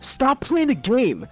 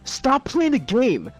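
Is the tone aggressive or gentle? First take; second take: aggressive; aggressive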